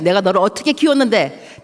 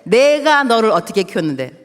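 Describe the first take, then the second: First: Hurt mother's reproach to her son, stress on 키웠는데; 키웠는데 falling heavily at the end; angry reproach. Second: The same line repeated louder, opening 내가 hit hard; 내가 punched, building anger toward the son; louder angry reproach. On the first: (아들에게 서운한 엄마의 꾸짖음, 키웠는데에 힘주어) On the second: (같은 말을 더 크게, 내가에 강세를 주며 화난 엄마) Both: Retold or imitated. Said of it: "내가 이제 화가 났죠".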